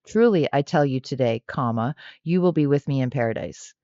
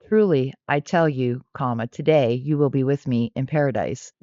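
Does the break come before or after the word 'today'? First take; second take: after; before. First: The break comes after the word today. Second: The break comes before the word today. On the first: The promise is made today; paradise comes someday. "if you place that non existent comma after today" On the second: The listener will be in paradise on this very day. "If you place the comma before today"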